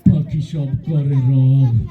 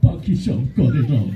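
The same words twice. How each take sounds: First: It is recited in a frightening, menacing voice. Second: It is recited in a weeping, tearful voice. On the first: "তোরটা তো আরো বেশি ভয়ঙ্কর শোনা গেল" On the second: "কানতে কানতে কয়"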